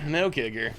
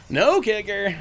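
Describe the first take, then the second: First: Said in the usual way. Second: High, loud surprised "No kicker". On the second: Real, not acted. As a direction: caught off guard. Reacting to opponent's play.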